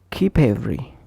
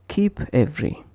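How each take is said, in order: First: "keep every" run together as kee-pevery; consonant linked to vowel. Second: "keep every" with a break after p; separate words. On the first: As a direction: push the p onto "every". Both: Shown as a demonstration. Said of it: "push the consonant onto the vowel".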